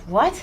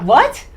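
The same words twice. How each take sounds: First: Disbelieving what. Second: A louder, sharper second what, half outraged; almost angry. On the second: Retelling her managers' call, near-angry disbelief. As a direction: push the repeated what up into near anger. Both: Retold or imitated. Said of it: "Like, I was almost angry".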